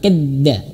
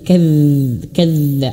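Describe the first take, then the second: First: The dz sound is cut short without flowing. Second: The dz sound is held and flows longer. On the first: The speaker calls it wrong. "jangan kadza" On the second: The speaker calls it right. "tapi kadz, kadza, ada tempo di situ"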